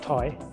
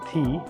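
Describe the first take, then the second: First: The vowel sounds like 'eye', rhyming with sigh. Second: The vowel sounds like 'ee', rhyming with see. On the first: The speaker calls it wrong. "people get it wrong and they pronounce it Thai" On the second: The speaker calls it right. "it's called Tea"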